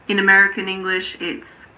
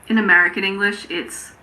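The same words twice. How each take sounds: The two takes are said the same way.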